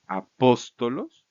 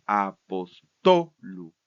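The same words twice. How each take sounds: First: Slow, loud "apóstolos", stress on PÓS; antepenultimate stress. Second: Very slow, loud "apostolu", stress on TO; penultimate stress. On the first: Teacher showing the nominative, slow stress on PÓS in "apóstolos". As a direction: hit PÓS hard in "apóstolos", drawn out. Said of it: "Entonces nos quedaría así". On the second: Teacher showing the genitive, drawn-out stress on TO in "apostolu". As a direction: split "apostolu" into syllables and punch TO. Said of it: "vamos a pronunciarlo en la penúltima". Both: Shown as a demonstration.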